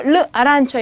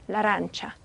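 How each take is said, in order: First: The article is said apart from the noun. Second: The article runs into the noun as one word. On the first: The speaker calls it wrong. "절대로 르 아란처 이렇게 읽으시면 안 돼요" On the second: The speaker calls it right. "한 단어인 것처럼"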